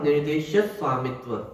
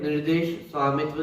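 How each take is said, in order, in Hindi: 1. संयुक्त व्यंजन से पहले वाले अक्षर बलयुक्त होते हैं। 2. संयुक्त व्यंजन से पहले कोई अतिरिक्त बल नहीं होता। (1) "उससे पहले शा पे बल दिया जाता है" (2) "अपन सामान्यतः ऐसा पढ़ते हैं"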